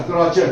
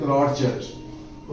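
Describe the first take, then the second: First: Said in the usual way. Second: क्रॉचेट said slowly and softly, drawn out; teacher repeating क्रॉचेट slowly; slow clear repeat. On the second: Shown as a demonstration. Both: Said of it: "क्रॉचेट इसको बोलते हैं".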